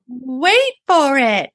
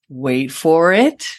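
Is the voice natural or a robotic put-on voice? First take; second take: robotic; natural. First: It is said in a put-on robotic female voice. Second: It is said in a natural speaking voice.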